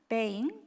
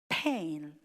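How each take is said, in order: First: The p is said without a puff of air. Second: The p is said with a strong puff of air. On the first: "si yo pronuncio con una pronunciación española" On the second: "Estoy exagerando un poco"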